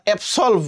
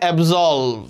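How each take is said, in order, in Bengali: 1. মাঝের ব্যঞ্জনটি হিসহিসে s ধ্বনি। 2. মাঝের ব্যঞ্জনটি গুনগুনে z ধ্বনি। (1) "আমরা অ্যাবসলভ বলি" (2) "বাট এটার উচ্চারণ হবে অ্যাবজলভ"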